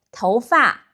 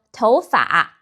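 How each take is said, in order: First: 头发 with 发 falling. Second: Taiwan-style 头发, third-tone 发. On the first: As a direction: drop the tone on 发 in 头发. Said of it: "pronounced as a falling tone". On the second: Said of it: "pronounced as a third tone". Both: Shown as a demonstration.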